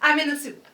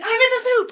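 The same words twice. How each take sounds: First: It is said in a normal voice. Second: It is said in a shout.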